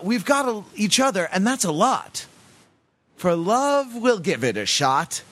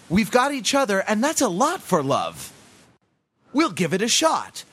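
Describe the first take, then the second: First: The break comes before "for love". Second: The break comes after "for love".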